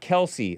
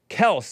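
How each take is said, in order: First: The name ends on an ee vowel. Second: The name ends on an s sound. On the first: The speaker calls it wrong. "not Kelsey" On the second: The speaker calls it right. "Kels, not Kelsey"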